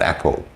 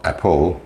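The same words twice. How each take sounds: First: Said in the usual way. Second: "apple" with the weight moved to the second syllable; wrong word stress. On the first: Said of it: "but apple". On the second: Shown as a demonstration. Teacher showing a stress mistake, "apple" stressed on the end. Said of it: "it's not apple".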